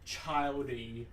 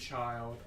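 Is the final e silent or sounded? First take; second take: sounded; silent. First: The word ends with an extra ee sound. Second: The word ends with no extra vowel sound. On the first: "I always read it as childy" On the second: "let's say child"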